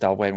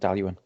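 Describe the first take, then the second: First: The name ends with a 'wayne' sound. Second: The name ends with a 'yoo-en' sound. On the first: The speaker calls it wrong. "replace Dalwayne with Dalyuen" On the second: The speaker calls it right. "replace Dalwayne with Dalyuen"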